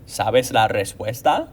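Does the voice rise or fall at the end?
rise. The voice rises at the end, like a question.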